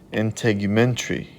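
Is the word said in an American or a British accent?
British. It is said in an attempted British accent.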